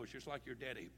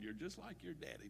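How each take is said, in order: First: It is said in a sharp, scornful tone. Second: It is said in a sweet, affectionate tone. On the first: It is meant as a criticism. "No, ... Pow!" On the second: It is meant as a compliment. "She's not being sweet and saying, oh, honey pie, you are so wonderful"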